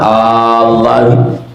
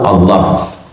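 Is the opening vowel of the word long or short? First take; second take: long; short. First: The opening vowel is drawn out long. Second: The opening vowel is short, not drawn out. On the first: It asks a question: is it by God? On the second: It is a plain statement: by God. "yang kedua tak ada mat"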